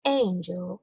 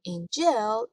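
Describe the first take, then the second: First: Angel, with the first syllable AN stressed and drawn out. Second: Angel with the stress wrongly on the second syllable, an-GEL. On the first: Teacher showing the correct word stress, first-syllable stress on angel. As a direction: say angel as AN-gel, weight up front. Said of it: "استرس کلمه روی هجای اول هست". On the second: Teacher showing students the mistake, misplaced final stress on angel. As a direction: push the weight onto the end of angel, an-GEL. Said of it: "اشتباهه". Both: Shown as a demonstration.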